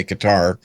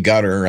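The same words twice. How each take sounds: First: Qatar said as kuh-TAR; Qatar with a short first syllable and long "tar" ending; own Qatar pronunciation. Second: Qatar said like "gutter"; Qatar as KUT-er, with a short unstressed ending; alternate Qatar pronunciation. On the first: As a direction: stress the second syllable of Qatar, an open TAR. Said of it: "I say Qatar". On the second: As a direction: stress the first syllable of Qatar, GUT-er. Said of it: "Some people say Qatar". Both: Shown as a demonstration.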